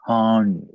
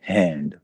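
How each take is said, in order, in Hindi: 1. स्वर खुला 'ah' है, जैसे 'father' में। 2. स्वर सपाट 'a' है, जैसे 'cat' में। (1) "अब हम इसको आ की साउंड देंगे तो ये बनेगा हांड" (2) "इंग्लिश में हम इसको पढ़ते हैं हैंड, क्योंकि वहां पे ये ए है"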